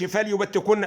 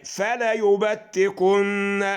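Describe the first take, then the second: First: The l has no vowel after it. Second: The l is followed by a short a. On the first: The speaker calls it wrong. "انت سكنت اللام ليه؟" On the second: The speaker calls it right. "فتحه بس على اللام اهي"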